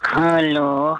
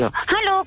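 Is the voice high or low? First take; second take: low; high. First: It is said in a low, nasal put-on voice. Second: It is said in a high put-on voice.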